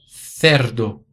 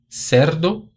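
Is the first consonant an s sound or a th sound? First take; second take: th sound; s sound. First: The first consonant is a th sound. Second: The first consonant is an s sound. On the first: This is how it is said in Spain. "o som interdental" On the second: This is how it is said in Latin America. "o som de S"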